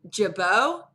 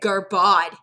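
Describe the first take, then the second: First: The name is said the designer's own way. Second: The name is sounded out as it is written. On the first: "that was like Jabot" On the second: "I'd say Garbod because that's what it looked like"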